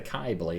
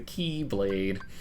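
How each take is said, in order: First: The first syllable rhymes with eye. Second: The first syllable rhymes with see. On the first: The speaker calls it wrong. "It's not the Kai Blade" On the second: The speaker calls it right. "it's the Key Blade"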